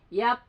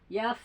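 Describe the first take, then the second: First: It ends in a closed p with no airflow. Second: It ends in an f with air flowing out. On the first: The speaker calls it wrong. "langsung hilang ya" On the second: The speaker calls it right. "tapi udara terus ngalir"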